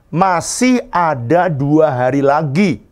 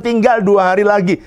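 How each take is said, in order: First: Slow, firm, hopeful MASIH ada; right way to say it. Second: TINGGAL said high as a warning; wrong way to say it. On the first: Pastor showing the treasurer how to report, slow and hopeful. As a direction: lean on MASIH, slow and sure. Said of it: "Jadi gimana cara ngomong". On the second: Pastor mocking the treasurer's worried report, high TINGGAL. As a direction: stress TINGGAL like a bad-news report. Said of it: "Jangan bilang". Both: Shown as a demonstration.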